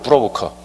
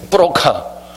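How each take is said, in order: First: It is said smoothly with English-like rolled sounds. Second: It is said with hard, tense Korean-style consonants. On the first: It sounds like an ordinary job title. The speaker calls it right. "발음이 굴리니까 그냥 들리지" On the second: It sounds like a swindler or con man. The speaker calls it wrong. "일 번처럼 발음하면 뿌로카 이렇게 되겠지"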